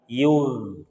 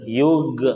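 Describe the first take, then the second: First: The gh sound flows out smoothly. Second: The gh sound is stopped abruptly. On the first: The speaker calls it right. "kalau misalkan kita lewatkan suara kita" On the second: The speaker calls it wrong. "ini ditahan"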